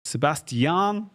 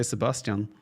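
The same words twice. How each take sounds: First: "Sebastian" slow and higher as se-bas-ti-AN with a rise; careful, effortful se-bas-ti-an; slow copy of the name. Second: Said in the usual way. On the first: Retold or imitated. Caster copies co-caster's se-bas-ti-AN slowly. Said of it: "more natural to just say Sebastian". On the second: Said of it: "more natural to just say".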